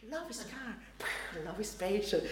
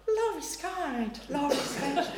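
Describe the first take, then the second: First: Much softer, murmured along under the breath; mouthing along. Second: Reading from the lectern. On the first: Wedding crasher murmurs along with the reading, much softer. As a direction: mouth the words quietly along with the reader. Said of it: "And he goes". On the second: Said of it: "Gloria from the lectern". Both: Retold or imitated.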